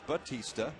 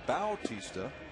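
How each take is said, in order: First: The first syllable is a plain 'ba' sound. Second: The first syllable is a 'bow' sound. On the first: This is the commonly heard version of the name. The speaker calls it wrong. "You've often seen that name pronounced Batista" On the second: This is the version the name's owner prefers. The speaker calls it right. "Jose prefers the pronunciation Bautista"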